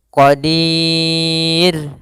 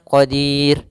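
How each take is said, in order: First: The long vowel is held for four beats. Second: The long vowel is held for two beats. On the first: "empat harakat" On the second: "dua harakat"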